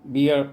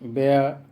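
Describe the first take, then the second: First: The vowel sounds like 'ee' as in beer. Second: The vowel sounds like 'air' as in bare. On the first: Listeners think it means the alcoholic drink. The speaker calls it wrong. "इसको भी अगर आप बियर पढ़ देंगे तो लोग समझ जाएगा नशीला पदार्थ" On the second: It means the animal or to carry. The speaker calls it right. "जबकि इसका उच्चारण बेयर होता है"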